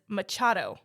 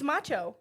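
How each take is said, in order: First: The name is said with a 'd' sound. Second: The name is said without a 'd' sound. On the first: The speaker calls it wrong. "I was reading it as Machado" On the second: The speaker calls it right. "there's no D. It's macho"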